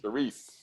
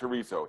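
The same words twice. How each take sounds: First: It is said with a Portuguese pronunciation. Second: It is said with a Spanish pronunciation. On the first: The speaker calls it right. "It's chorizo" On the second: The speaker calls it wrong. "it's not chorizo. Chorizo is Spanish"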